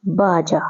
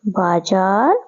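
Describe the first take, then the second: First: बाजा said with a plain j, baaja; teacher models बाजा with a straight j sound. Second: बाजार said with a z sound, बाजा़र; teacher models बाजार with a clear z; baazaar with z. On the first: Teacher contrasting बाजा with बाजार for pupils. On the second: Teacher showing pupils the nukta sound in बाजार. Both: Shown as a demonstration. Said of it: "इसमें उच्चारण अलग-अलग आ रहा है".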